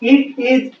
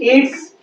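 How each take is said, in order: First: It is said as two separate full words. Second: It is said as one short contracted word.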